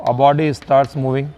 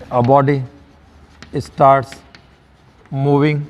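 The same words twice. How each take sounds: First: Said in the usual way. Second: Long pause after each word or two; measured, broken-up dictation. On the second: Shown as a demonstration. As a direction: dictate slowly for students writing it down.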